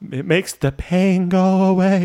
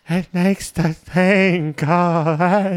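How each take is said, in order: First: It is said with normal clear lip sounds. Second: It is mouthed as if the speaker had no lips.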